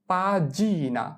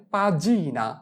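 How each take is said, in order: Both takes have the same delivery.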